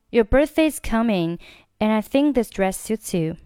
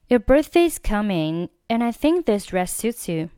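The two takes are said the same way.

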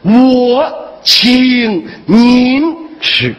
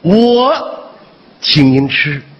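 First: The stress is on 您. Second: The stress is on 我.

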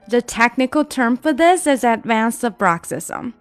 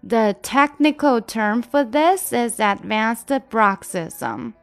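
First: The sentence is spoken at the fastest pace. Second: The sentence is spoken somewhat faster. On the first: "我们加快一点点。" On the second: "加速一点点哈。"

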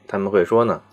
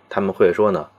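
The two takes are said the same way.

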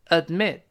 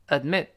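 First: It is said slowly, with a held stop. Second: It is said fast, the stop dropped. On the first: "慢慢来" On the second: "读快了最后那个它没了"

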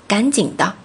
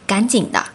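Both takes have the same delivery.

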